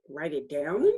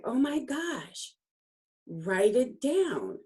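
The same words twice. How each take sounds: First: Questioning echo with a rising end; puzzled echo. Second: Excited urging. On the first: She questions the coach's order to write it down, puzzled echo. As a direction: repeat the instruction back as a doubtful question. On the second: Coach tells her to write the memory down, excited urging. Acts out coach's delighted instruction. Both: Retold or imitated.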